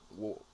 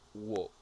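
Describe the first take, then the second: First: The L sound is silent in the word. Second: The L sound is silent in the word.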